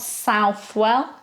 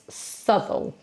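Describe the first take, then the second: First: The name is pronounced following its spelling. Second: The name is pronounced unlike its spelling. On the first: The speaker calls it wrong. "it's not Southwell" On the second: The speaker calls it right. "it's Southwell"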